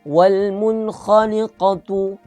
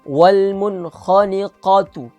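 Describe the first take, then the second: The two takes are said the same way.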